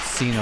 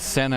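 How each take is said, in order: First: The name sounds like 'Cena'. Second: The name sounds like 'Senna'. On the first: The speaker calls it right. "It's Sina, like John Cena" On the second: The speaker calls it wrong. "I mispronounced her lam- name last night and just said Senna"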